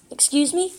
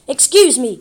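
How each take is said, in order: First: Rising, puzzled excuse me; puzzled question. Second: Loud, offended excuse me; indignant. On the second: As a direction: bark "Excuse me!" loudly, falling hard on excuse. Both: A narrator's reading. Confused question then outraged repeat.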